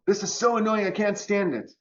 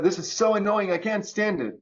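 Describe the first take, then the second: First: High, whiny mock complaint; annoyed whine. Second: Mock annoyed whine. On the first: Speaker mocks the annoyed ego with a whiny complaint. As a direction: whine it like everything bothers you. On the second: Acting annoyed complaint.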